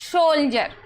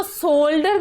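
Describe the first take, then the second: First: "सोल्जर" with d as j; correct pronunciation. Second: "शोल्डर" with a hard d; wrong pronunciation. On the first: Teacher models soldier for students, "सोल्जर" with a j sound. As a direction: say "सोल्जर", a j after the l. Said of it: "अब इसको सोल्जर क्यों पढ़ रहे हैं". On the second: Teacher warns students against misreading soldier, "शोल्डर" with a d sound. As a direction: say "शोल्डर", d instead of j. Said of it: "अब इसको शोल्डर नहीं पढ़ना है". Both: Shown as a demonstration.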